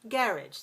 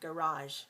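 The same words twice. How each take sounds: First: The stress is on the first syllable. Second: The stress is on the second syllable. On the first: This is the British pronunciation. "In British English, we say garage... two syllables stress the first" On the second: This is the American pronunciation. "in America, we say garage... two syllables stress the second"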